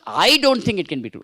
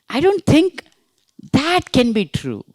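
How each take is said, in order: First: The stress falls on the word I. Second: The stress falls on the word that. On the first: Others may think so, but not the speaker. "That means you may think, but I don't think" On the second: This particular thing is what is doubted. "you're talking about that particular thing"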